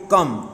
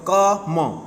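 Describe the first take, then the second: First: Said in the usual way. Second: "क म" broken into two beats, ka... ma; wrongly split word. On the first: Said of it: "we read like this one". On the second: Shown as a demonstration. Teacher showing how not to read it, split in two. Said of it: "not we read like this one".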